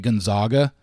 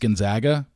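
First: The middle syllable sounds like 'zogs'. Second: The middle syllable sounds like 'zags'. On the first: The speaker calls it wrong. "I consistently say Gonzaga" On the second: The speaker calls it right. "when I know it's Gonzaga"

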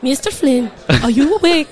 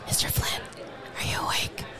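First: It is said with a put-on Swedish accent. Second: It is said in the speaker's normal accent.

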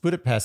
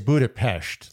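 First: It is said the Americanized way. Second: It is said the native Hungarian way. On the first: "Americanized, it's Budapest" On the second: "it is Budapest. Like, if you really want to say it right"

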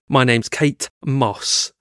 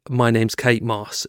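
First: Kate and Moss are said as separate words. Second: Kate and Moss run together smoothly. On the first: The speaker calls it wrong. "She sort of said it as two really separate words" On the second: The speaker calls it right. "instead of saying"

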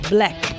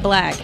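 First: The vowel sounds like an 'e'. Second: The vowel sounds like a plain 'a'. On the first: The speaker calls it right. "It's an E" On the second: The speaker calls it wrong.

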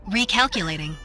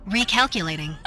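The two takes are said the same way.

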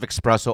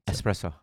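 First: It starts with an 'ex' sound. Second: It starts with an 'es' sound. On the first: The speaker calls it wrong. "There's no X" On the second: The speaker calls it right. "Yeah, there you go"

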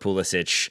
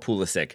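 First: The name is said in a Croatian way. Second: The name is said the usual familiar way. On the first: This is an acceptable alternative tied to the name's origin. "since we're so close to Croatia, you can go with Pulisic" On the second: This is the established way the name is said. "it's the pronunciation he said before"

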